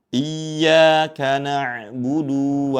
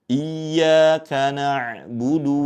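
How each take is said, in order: First: The final vowel of na'budu is drawn out long. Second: The final vowel of na'budu is kept short. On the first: The speaker calls it wrong. "jangan sampai dibaca menjadi bacaan yang panjang" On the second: The speaker calls it right. "yang betul di sini huruf dalnya dibaca pendek"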